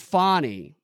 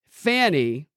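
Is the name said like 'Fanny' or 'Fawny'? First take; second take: Fawny; Fanny. First: The first vowel is a French-style 'aw' sound. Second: The first vowel is a plain short 'a' sound. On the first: The name is treated as if it were French. The speaker calls it wrong. "they call her Fannie as though she's French and it's spelled F-A-W-N-Y" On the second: The name is treated as plain English. The speaker calls it right. "F-A-N-I, seems to be what the appropriate pronunciation would be"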